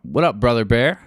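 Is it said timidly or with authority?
with authority. It is said confidently, with authority.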